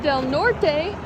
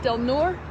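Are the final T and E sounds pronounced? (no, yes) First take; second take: yes; no. First: The final T and E sounds are pronounced. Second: The final T and E sounds are dropped. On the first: The speaker calls it wrong. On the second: The speaker calls it right.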